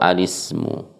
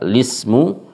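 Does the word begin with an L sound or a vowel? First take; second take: vowel; L sound. First: The word starts with an a vowel before L. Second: The word starts directly with the L sound. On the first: "Cara baca kalau mulai dari lismu itu boleh dengan dua cara" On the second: "Cara baca kalau mulai dari lismu itu boleh dengan dua cara"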